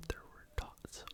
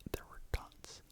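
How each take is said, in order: Both takes have the same delivery.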